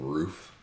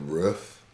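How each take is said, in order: First: Roof is said in the usual standard way. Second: Roof is said in an older regional way. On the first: "instead of roof" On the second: "She also said roof"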